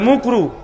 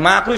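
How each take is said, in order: First: The word is mumbled with a muffled first vowel. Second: The word is said clearly with an open vowel. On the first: The speaker calls it wrong. "এমন ভাবে বলে যে না মানুষ বুঝতে না পারে" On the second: The speaker calls it right. "মাকরু শব্দ হুজুর ঠিক করে বলে না"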